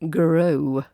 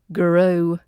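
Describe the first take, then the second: Both takes have the same delivery.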